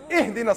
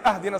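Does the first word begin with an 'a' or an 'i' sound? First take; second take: i; a. First: The word begins with an 'i' vowel. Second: The word begins with an 'a' vowel. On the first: The speaker calls it right. "It's ihdina sirat al-mustaqim. Read it right" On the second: The speaker calls it wrong. "You better not say"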